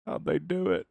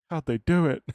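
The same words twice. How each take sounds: First: Said in the usual way. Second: High, loud gasping question; mock gasp. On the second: Streamer teasing Ben's gasp, hammed-up high loud astonishment. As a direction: play up the shocked chatter. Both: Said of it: "you gasped".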